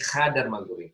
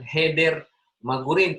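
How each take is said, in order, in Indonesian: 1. Kata pertama memiliki vokal a dan a. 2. Kata pertama memiliki vokal e dan e. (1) "tapi hadar magurim"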